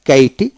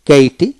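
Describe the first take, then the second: No difference in how they are said.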